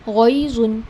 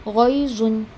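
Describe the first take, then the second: The two takes are said the same way.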